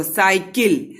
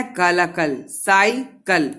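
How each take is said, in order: First: Said in the usual way. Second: Slow, stretched cycle, syllable by syllable; slow, drawn-out syllables. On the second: Shown as a demonstration. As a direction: draw out cycle slowly for the class. (Cycle को धीरे, खींचकर बोलिए) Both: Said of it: "तो cycle जल्दी बोलते हो".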